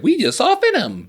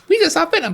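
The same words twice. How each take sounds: First: It is said in his normal voice. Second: It is said in a high Mickey Mouse voice.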